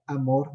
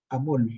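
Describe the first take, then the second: First: Said in the usual way. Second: "amol" with a clear l in place of the r; childlike r-to-l swap. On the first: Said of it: "en vez de que el niño diga amor". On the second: Shown as a demonstration. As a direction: say "amol", an L where the R belongs, like a small child. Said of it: "dice, por ejemplo".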